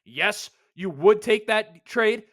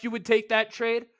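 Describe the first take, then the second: First: "would" leaned on, slow and deliberate; slow stress on would. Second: Said in the usual way. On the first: Real, not acted. Hosting a podcast, insisting listeners would take the trade, slow and stressed. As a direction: drag out "yes, you would" to drive it home.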